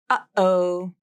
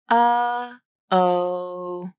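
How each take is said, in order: First: The voice cuts off with a sharp, abrupt stop. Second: The voice fades to a soft, gradual stop. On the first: The speaker calls it right. "The stop T is sharp and abrupt, and the vocal cords come together quickly" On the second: The speaker calls it wrong. "you're not just stopping your voice like this. ... That doesn't have the right quality"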